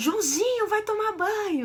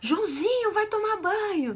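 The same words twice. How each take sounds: First: It is said in an aggressive, scolding tone. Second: The same.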